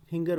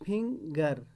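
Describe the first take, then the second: First: Said in the usual way. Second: finger in two beats, fing, then gar; split into syllables. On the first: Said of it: "finger word है". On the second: Shown as a demonstration. Teacher showing a two-syllable word, split into syllables. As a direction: break finger with a short gap after fing. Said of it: "दो बार इस word को हम".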